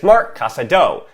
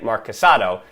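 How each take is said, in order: First: The stress falls on the last syllable. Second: The stress falls before the last syllable. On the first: The speaker calls it right. "that accent on the O" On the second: The speaker calls it wrong. "I was ignoring that accent on the O"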